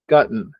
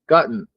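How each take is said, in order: First: The t is swallowed into a nasal ending. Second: The same.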